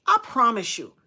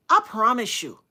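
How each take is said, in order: Both takes have the same delivery.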